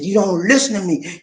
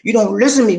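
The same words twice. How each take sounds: First: Imitating wife, slightly raised complaint; a touch of reproach; wife scolding over the driver's cost; mild retold anger. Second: Imitating wife, pushing the complaint harder and louder; mock scolding with rising force; wife scolding over the driver's cost; louder retold anger. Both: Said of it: "She was angry".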